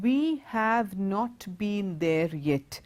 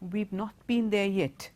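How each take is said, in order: First: We and have are said as separate full words. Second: We and have are joined into one contracted syllable. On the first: "Instead of saying" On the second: "when you say it together"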